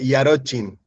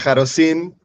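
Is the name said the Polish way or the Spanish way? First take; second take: Polish; Spanish. First: The name is said with a Polish pronunciation. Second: The name is said with a Spanish pronunciation. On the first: "en polaco es" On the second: "en español sería"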